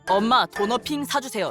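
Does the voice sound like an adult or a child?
adult. It is said in a plain adult voice. This is not how a child would ask. The speaker calls it wrong. "이렇게 안 한다 이 말이지"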